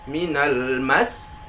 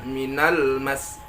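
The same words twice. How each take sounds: First: "Minal mas" very slow, "mas" lifted; "Minal mas" drawn out, accent on "mas"; raised final syllable. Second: "minal mas" slow, "mas" level and unaccented; "minal mas" with no lift on "mas"; flat ending. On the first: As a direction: rise firmly onto "mas" in "Minal mas". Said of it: "kita naikkan huruf". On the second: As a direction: keep "minal mas" even to the end. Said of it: "Kalau kita baca datar". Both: Shown as a demonstration.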